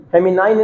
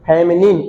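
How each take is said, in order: First: फेमिनाइन ending in a nine sound; wrong pronunciation. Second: फेमिनिन ending in a short nin; correct pronunciation. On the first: Teacher warning students of a mistake, फेमिनाइन as femi-nine. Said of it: "फेमिनाइन नहीं". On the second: Teacher correcting students' pronunciation, फेमिनिन as femi-nin. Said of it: "इसको भी pronunciation ठीक कीजिए". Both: Shown as a demonstration.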